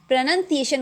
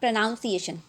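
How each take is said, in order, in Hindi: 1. दूसरा अक्षर 'nun' जैसा सुनाई देता है। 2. दूसरा अक्षर 'noun' जैसा सुनाई देता है। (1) "लेकिन ये प्रोनाउंसिएशन होता है" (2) "नॉट प्रोनाउंसिएशन"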